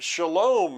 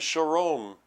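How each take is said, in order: First: The middle consonant is a clear L sound. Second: The middle consonant is an R-like sound.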